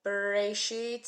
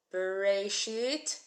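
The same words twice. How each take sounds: First: "Bereshit" repeated slowly and loudly for the class; slow Hebrew word. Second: "Bereshit" said slowly and loudly, syllable by syllable; slow Hebrew word. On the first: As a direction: model "Bereshit" in slow, clear sounds. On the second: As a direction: spell out "Bereshit" in slow, clear sounds. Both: Shown as a demonstration. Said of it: "B-R-A-S-H-I-T".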